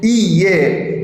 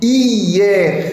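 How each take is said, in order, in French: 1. Le mot « hier » se prononce en deux syllabes. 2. Le mot « hier » se prononce en deux syllabes.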